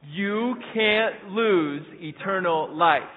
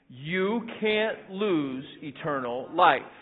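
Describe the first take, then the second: First: It is said louder, with more force. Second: It is said plainly, without extra force.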